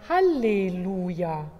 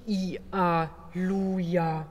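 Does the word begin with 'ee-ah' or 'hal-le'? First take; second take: hal-le; ee-ah. First: The word begins with the syllables 'hal-le'. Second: The word begins with a donkey-like 'ee-ah'. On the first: The speaker calls it right. "sondern Halleluja" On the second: The speaker calls it wrong. "Nicht I-A-Luja"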